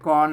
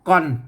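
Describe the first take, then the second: First: The word is said on a mid tone. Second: The word is said on a low tone. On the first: "เสียงสามัญเนี่ย" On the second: "เสียงเอกนั่น"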